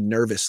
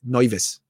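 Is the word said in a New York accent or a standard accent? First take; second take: standard; New York. First: It is said in a standard accent. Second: It is said in a New York accent.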